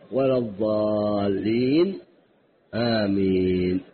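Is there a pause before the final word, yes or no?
yes. A light short pause comes before amen. Amen stands apart from the recited chapter. The speaker calls it right. "افصل بسكتة لطيفة خفيفة ثم قل آمين"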